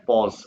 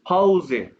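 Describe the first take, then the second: First: The word ends without a final vowel sound. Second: The word ends with a sounded final vowel. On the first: "ये इंग्लिश का वर्ड है ना पॉज" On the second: "German में एक एक अल्फाबेट बोला जाता है, तो ई को एक है"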